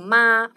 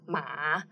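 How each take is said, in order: First: The pitch stays high and level. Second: The pitch dips down and then rises. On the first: It means mom. "first tone, means mom" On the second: It means horse. "which is the third tone"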